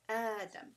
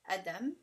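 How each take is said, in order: First: The first vowel is stretched for two counts. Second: The first vowel is held short. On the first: The speaker calls it right. "It's like you're pulling twice" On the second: The speaker calls it wrong. "instead of saying"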